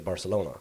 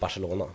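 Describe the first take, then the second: First: It is said with a typical English pronunciation. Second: It is said with a Swedish pronunciation. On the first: "most English people they say Barcelona" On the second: "in Swedish I pronounce it Barcelona"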